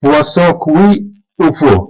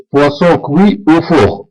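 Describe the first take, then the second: First: Poisson cuit au four said very slowly, each syllable clear; slow French model. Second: Poisson cuit au four repeated very slowly, "cuit" as kwi; slow French repeat. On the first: Teacher models French for learners, very slow and clear. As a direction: spell out "cuit" slowly as kwi. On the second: Teacher repeats the French phrase for learners, very slow. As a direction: say it once more, drawn out. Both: Shown as a demonstration. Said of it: "نقول هذا سمك مشوي".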